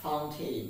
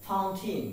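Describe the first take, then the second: First: Fountain ending in "-tayn"; full "ay" vowel at the end of fountain; wrong pronunciation. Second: Fountain ending in "-tin"; short "i" at the end of fountain; corrected pronunciation. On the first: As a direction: say fountain to rhyme its end with "rain". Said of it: "not fountain". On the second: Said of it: "As like this word is". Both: Shown as a demonstration.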